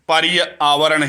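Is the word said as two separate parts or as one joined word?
two parts. It is said slowly with the two parts separated. The sounds stay apart, so no sandhi change happens. "अलग अलग करेंगे और शीघ्रता से नहीं करेंगे"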